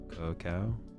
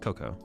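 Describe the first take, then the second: First: The word is said as ka-KOW. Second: The word is said as KOH-koh. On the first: The speaker calls it wrong. "Do you pronounce C O C O A cacao?" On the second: The speaker calls it right. "No, it's cocoa"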